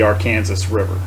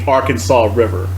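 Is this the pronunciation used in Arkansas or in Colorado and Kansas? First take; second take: Colorado/Kansas; Arkansas. First: It uses the pronunciation used in Colorado and Kansas. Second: It uses the pronunciation used in Arkansas. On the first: This is the local name on the upper river. "up in Colorado and Kansas, it is called the Arkansas River" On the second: This is the local name on the lower river. "the people from Arkansas do call it the Arkansas River"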